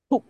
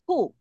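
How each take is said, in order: First: 哭 cut off as if throttled; choked short 哭. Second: 哭 with a long open vowel. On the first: Teacher showing the final consonant, 哭 short and choked. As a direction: stop 哭 abruptly in the throat. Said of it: "掐住的感觉". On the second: Teacher showing only the upper part, 哭 held long. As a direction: draw out the vowel of 哭. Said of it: "它很长，对不对". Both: Shown as a demonstration.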